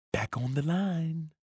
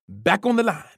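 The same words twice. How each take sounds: First: Softer, slow, light order; almost whispering. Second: A mild loud bark; barked order. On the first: Coach leans in to repeat the order softly. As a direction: lean in and say it lightly. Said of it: "almost as if he were whispering". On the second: Coach sends the runner back with a mild bark. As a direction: snap the order at him. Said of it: "he barked". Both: A narrator's reading.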